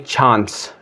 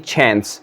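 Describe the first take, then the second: First: It is said with a British accent. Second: It is said with an American accent.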